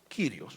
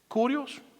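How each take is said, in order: First: The first vowel sounds like ee. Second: The first vowel sounds like oo. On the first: "dicen Kyrios" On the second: "otros lo pronuncian como Curios también"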